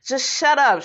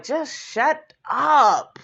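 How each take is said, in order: First: Said in the usual way. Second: A slow, drawn-out exasperated "Just shut up". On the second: Retold or imitated. Vlogger telling Mayetta off, slow and exasperated. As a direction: stretch "Just shut up" out slowly like you're fed up. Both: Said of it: "I was just like".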